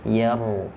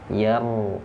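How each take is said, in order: The two takes are said the same way.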